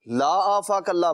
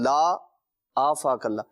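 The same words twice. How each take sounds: First: The words run together without a pause. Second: There is a pause after 'la'.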